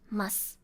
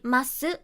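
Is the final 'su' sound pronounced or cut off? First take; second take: cut off; pronounced. First: The final su sound is cut off. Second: The final su sound is fully pronounced. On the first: The speaker calls it right. "You cut off the su sound" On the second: The speaker calls it wrong. "you don't say ます"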